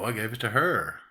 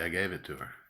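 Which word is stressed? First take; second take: her; gave. First: The stress falls on the word her. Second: The stress falls on the word gave. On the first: It was her, not another person. "Now I'm going to emphasize her because it's a contrast" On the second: A plain neutral statement. "Only gave is the content word"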